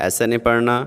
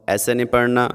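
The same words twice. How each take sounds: The two takes are said the same way.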